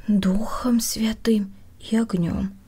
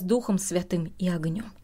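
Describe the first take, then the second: First: Slow, musing repeat of the words; thinking aloud, drawn out; pondering to oneself. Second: Said in the usual way. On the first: A narrator's reading. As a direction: turn the words over slowly, half understanding. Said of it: "мысленно повторила я, не совсем понимая".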